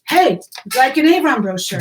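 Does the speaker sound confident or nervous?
confident. It sounds confident and relaxed.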